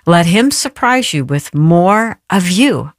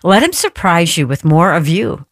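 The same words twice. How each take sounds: First: It is read at a slow pace. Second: It is read at a fast pace.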